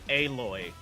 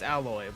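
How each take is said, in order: First: It sounds different from the everyday word alloy. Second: It sounds like the everyday word alloy. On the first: This is the official way to say the name. "but then say it's Aloy" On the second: This is how everyone would naturally read it. "something that everyone knows how to say"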